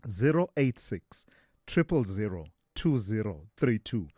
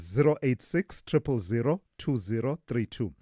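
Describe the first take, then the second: First: The number is read at a slower pace. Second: The number is read at a quicker pace.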